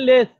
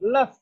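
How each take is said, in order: First: The vowel is a full, clear e sound. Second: The vowel is a short, reduced schwa sound. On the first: The speaker calls it wrong. "আমরা বলি লেস, লেস না" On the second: The speaker calls it right.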